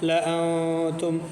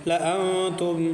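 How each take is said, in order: No difference in how they are said.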